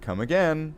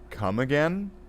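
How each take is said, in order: First: The voice falls at the end, like a statement. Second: The voice rises at the end, like a question. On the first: It is an invitation to return. The speaker calls it right. "should probably have said come again" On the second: It asks the listener to repeat something. The speaker calls it wrong. "Because you said it as a question"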